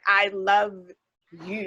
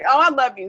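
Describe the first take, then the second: First: It is said in a sincere, heartfelt way. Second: It is said in a casual, offhand way.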